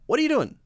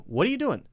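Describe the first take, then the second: First: The word 'doing' ends with a front n sound. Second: The word 'doing' ends with a front n sound.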